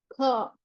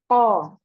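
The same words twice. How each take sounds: First: The consonant leaks with breath escaping audibly. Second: The consonant is thick with no breath escaping. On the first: The speaker calls it wrong. "bocor, ya, keluarnya napas" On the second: The speaker calls it right. "pengucapannya itu tebal"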